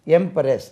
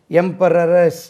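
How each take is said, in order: First: எம்பரஸ் with no extra "ra" before "res"; correct empress pronunciation. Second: எம்பரரஸ் drawn into emperor plus -ess, em-pa-ra-res; mispronounced empress. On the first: Teacher correcting the word for pupils, correctly pronounced em-pres. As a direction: say எம்பரஸ் short, em-pres, with only one "r". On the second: Teacher showing pupils the wrong form, mispronounced with a doubled "ra". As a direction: say எம்பரரஸ் with an extra "ra" before the final "s". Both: Shown as a demonstration. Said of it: "அப்படி இல்ல".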